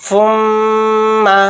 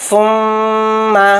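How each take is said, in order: The two takes are said the same way.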